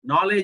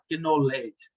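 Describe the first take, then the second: First: The initial K sound is silent. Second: The initial K sound is pronounced. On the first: The reader follows the spelling rule. The speaker calls it right. "नॉलेज में के silent है" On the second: The reader does not know the spelling rule. The speaker calls it wrong. "तो वो किनोलेज पढ़ेगा"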